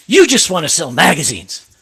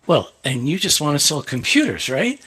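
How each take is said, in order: First: Mildly angry, emphatic imitation; a touch of anger, accusing; retold angry accusation. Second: Measured comeback ending in a rising "right?"; understated retort, lifting up on the final tag; retold cool retort. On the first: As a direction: act out a jabbing accusation, hitting YOU. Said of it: "he gets so mad". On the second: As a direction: toss the accusation back calmly. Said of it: "I said".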